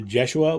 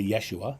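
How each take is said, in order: First: The name begins with a clear J sound. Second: The name begins with a clear Y sound. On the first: "I say uh, Jeshua with a J" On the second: "in writing, it's a Y, so people say"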